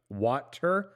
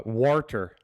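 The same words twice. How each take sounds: First: Said in the usual way. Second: "Warter." with an r slipped in, like an Irish speaker; Irish-style "Warter.". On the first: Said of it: "when they say water". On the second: Shown as a demonstration. Showing the table how the Irish say "Warter.". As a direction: say "Warter." with an added r sound. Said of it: "they say".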